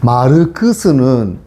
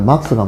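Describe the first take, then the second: First: The name has extra vowels between its consonants. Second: The name is clipped with no extra vowels. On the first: The speaker calls it wrong. "일본적인 마그도, 맥도날드 마그도 나르도 하는 어떤 그런 발음" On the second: The speaker calls it right. "막스가 맞습니다"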